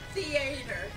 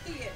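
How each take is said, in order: First: It is said with a hick Southern accent. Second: It is said with a standard accent.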